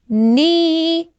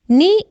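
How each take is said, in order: First: The vowel is long and stretched. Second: The vowel is short and quick. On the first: "the long one" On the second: "in short"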